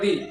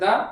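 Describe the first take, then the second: First: The vowel is a long 'ee' sound. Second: The vowel is a short 'uh' sound. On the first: "একটা দি" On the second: "এর দু রকম উচ্চারণ আছে একটা আছে দা"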